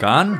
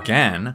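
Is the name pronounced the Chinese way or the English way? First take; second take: Chinese; English. First: The name is said with Chinese pronunciation. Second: The name is said with English pronunciation.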